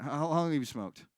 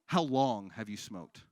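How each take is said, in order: First: Said in the usual way. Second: Slow repeat. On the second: Real, not acted. Repeated slowly for audience member.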